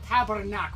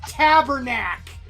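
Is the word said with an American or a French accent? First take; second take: French; American. First: It is said with a Quebec French accent. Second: It is said with an exaggerated American accent. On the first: "we're not gonna go" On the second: "like swears, but with like horrible American accents"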